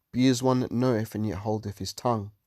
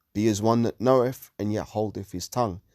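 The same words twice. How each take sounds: Both takes have the same delivery.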